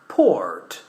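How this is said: The R after the vowel is pronounced.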